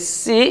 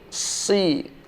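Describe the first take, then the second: First: The syllable is said thin, with a light sound. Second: The syllable is said thick, with a heavy sound. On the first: "si yang tipis" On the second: "menjadi si"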